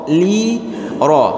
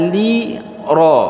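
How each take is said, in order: No difference in how they are said.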